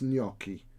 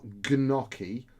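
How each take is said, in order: First: The initial G sound is silent. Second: The initial G sound is pronounced. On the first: The speaker calls it right. "You don't pronounce the G at all" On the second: The speaker calls it wrong. "it's not gnocchi"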